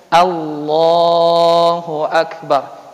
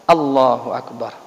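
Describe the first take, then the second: First: The opening vowel of Allah is slightly lengthened. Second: The opening vowel of Allah is kept short. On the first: "memanjangkan sedikit untuk satu alif dua harokatnya" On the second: "kalau takbir itu satu harokat betul"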